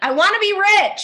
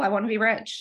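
First: It is said with strong conviction. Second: It is said casually, without conviction.

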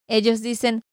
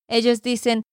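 Both takes have the same delivery.

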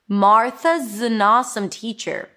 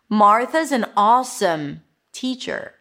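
First: Is is reduced to a z sound after Martha. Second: Is is reduced to a z sound after Martha.

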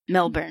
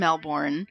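First: It is pronounced the way Australians say it. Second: It is pronounced in a non-Australian way.

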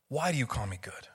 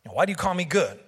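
First: The question sounds curious and genuinely inquiring. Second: The question sounds offended and indignant. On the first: He genuinely wants to know the man's reason. The speaker calls it right. "I'm curious" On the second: He is objecting to being called good. The speaker calls it wrong. "we kind of think of it as Jesus taking offense"

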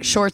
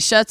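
First: The word is said with an R sound. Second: The word is said without an R sound. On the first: This is the intended word. The speaker calls it right. "for shorts" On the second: This imitates a child who could not say R's. The speaker calls it wrong. "he used to say shuts"

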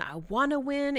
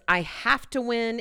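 First: The voice sounds excited and hopeful. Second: The voice sounds fearful and pressured.

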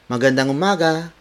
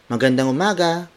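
First: It is said in a cheery, bright tone. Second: The same.

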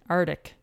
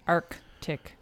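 First: The first 'c' sound is left out. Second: The first 'c' sound is clearly pronounced. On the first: The speaker calls it wrong. "I tend to say arctic, arctic, arctic. I drop that C" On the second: The speaker calls it right. "the key on this one is to pronounce that first C"

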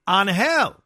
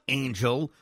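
First: It is said with a Spanish pronunciation. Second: It is said like the English word angel. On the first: The speaker calls it right. "It's pronounced Angel" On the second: The speaker calls it wrong. "It's not Angel like the team that lost Otani"

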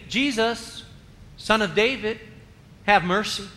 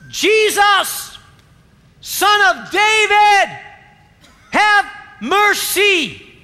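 First: It is said quietly and plainly. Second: It is shouted loudly.

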